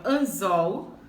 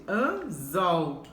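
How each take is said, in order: First: Said in the usual way. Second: "Anzol" split in two, stress on "zol"; teacher sounding out "Anzol", final syllable strong; stress on last syllable. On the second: Shown as a demonstration. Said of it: "última sílaba é que é a mais forte".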